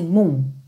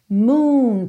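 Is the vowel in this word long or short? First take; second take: short; long. First: The vowel is cut short. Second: The vowel is held long. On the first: The speaker calls it wrong. "não fala assim" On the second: The speaker calls it right. "Percebe que esse som é compridinho"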